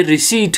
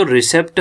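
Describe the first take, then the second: First: रिसीट as "ri-SEET", p silent; long "ee" and a plain t in रिसीट; correct pronunciation. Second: रिसेप्ट as "ri-SEPT", p sounded; short e and "pt" at the end of रिसेप्ट; common misreading. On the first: Teacher giving the actual reading, correct "ri-SEET". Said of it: "ये रिसीट है". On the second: Teacher quoting the usual reading, common misreading. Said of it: "असल में जो रिसेप्ट हम पढ़ते हैं". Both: Shown as a demonstration.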